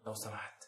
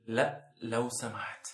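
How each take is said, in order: First: لو سمحت dropped to a soft undertone; quiet repeat. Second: لا لو سمحت drawn out very slowly; slow plea. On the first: Host repeating his request to viewer, soft undertone. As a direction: murmur لو سمحت softly as an afterthought. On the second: Host begging the viewer, slow drawn-out plea. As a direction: stretch لا، لو سمحت into a slow pleading beg. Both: Shown as a demonstration.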